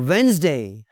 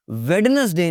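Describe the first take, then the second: First: वेडनेसडे said slowly as wens-day; two slow syllables in वेडनेसडे; silent D. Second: वेडनेसडे with the d sounded; three full syllables in वेडनेसडे; mispronounced D. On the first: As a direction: drop the first d in वेडनेसडे. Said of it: "डी silent है यहाँ पे". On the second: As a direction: say वेडनेसडे as wed-nes-day. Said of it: "वेडनेसडे नहीं जी". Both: Shown as a demonstration.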